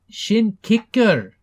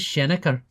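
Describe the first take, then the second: First: The name is said as two clear words. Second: The name is slurred into one shortened word. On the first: This is the original native name. The speaker calls it right. "No, no, Shin Shin Kicker" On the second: Outsiders mispronounced the name. The speaker calls it wrong. "It's stupid humans"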